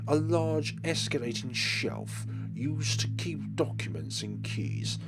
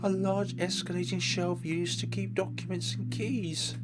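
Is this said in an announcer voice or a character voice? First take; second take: announcer; character. First: It is said in a neutral announcer voice. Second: It is said in a put-on character voice. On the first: A narrator is describing the scene. "I try and do my normal voices as if like some sort of announcer" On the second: The game character is speaking. "when Inko's sprite pops up on the screen, we'll try"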